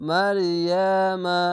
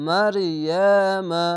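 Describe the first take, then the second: Both takes have the same delivery.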